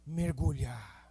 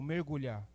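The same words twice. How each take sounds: First: It is said forcefully, with strong conviction. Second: It is said calmly, without extra force.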